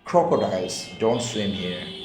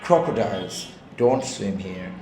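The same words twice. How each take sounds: First: It is said as one phrase without a break. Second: There is a break after the first word. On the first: Crocodiles do not swim in this place. "প্রথমটার অর্থ দাঁড়াচ্ছে যে crocodiles এখানে সাঁতরায় না।" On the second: There are crocodiles here, so you should not swim. "কুমির আছে এখানে সাঁতরায় না।"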